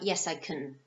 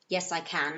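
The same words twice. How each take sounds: First: The word can is unstressed with a reduced vowel. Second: The word can is stressed with a full vowel. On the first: The speaker calls it wrong. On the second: The speaker calls it right. "here we have the emphasized form of the pronunciation"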